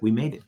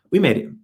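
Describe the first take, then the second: First: Said in the usual way. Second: Higher and louder second we made it; joyful repeat. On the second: Retold or imitated. Telling mom on draft day, joyful and louder. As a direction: let it burst out the second time.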